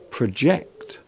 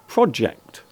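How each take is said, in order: First: The stress is on the second syllable. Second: The stress is on the first syllable. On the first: It is the verb. "the verb form is normally pronounced as project" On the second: It is the noun. "The noun is normally pronounced project"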